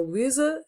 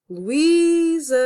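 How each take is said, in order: First: Said in the usual way. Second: "Luísa" called out loud and high, long held í; calling a name. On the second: Shown as a demonstration. Teacher calls "Luísa" to find the tonic syllable, stress drawn out on í. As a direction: call "Luísa", stretching the stressed í. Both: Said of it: "eu vou acentuar a sílaba tónica".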